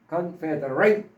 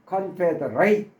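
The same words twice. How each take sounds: First: The last syllable sounds like 'ate'. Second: The last syllable sounds like 'ate'.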